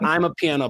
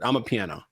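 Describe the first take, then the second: First: The first syllable sounds like 'eye'. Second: The first syllable sounds like 'ah'. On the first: The speaker calls it wrong. "Not I'm a piano" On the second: The speaker calls it right. "Ama one one word"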